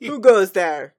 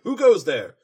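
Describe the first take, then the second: First: Loud royal challenge, falling at the end; Luna's loud warning, hammed up; booming challenge. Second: Loud challenge into the dark; loud, stern royal challenge; Luna's warning call. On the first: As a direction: boom it out like a princess on guard. Redoing Luna's warning louder. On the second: Retold or imitated. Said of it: "Luna warns her".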